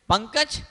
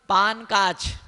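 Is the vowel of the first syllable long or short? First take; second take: Short; Long. First: The first syllable has a short vowel. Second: The first syllable has a long vowel. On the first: The speaker calls it right. "पंकज एक शब्द है" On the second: The speaker calls it wrong. "जिसने संस्कृत नहीं पढ़ी ... वो क्या बोलेगा"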